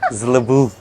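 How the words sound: The name is said with a French-sounding pronunciation.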